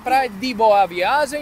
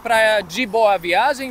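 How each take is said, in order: First: The d before boa is a plain d. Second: The d before boa is a j-like sound. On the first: This is how people from Recife say it. "λένε" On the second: This is how people elsewhere say it. "αντί για"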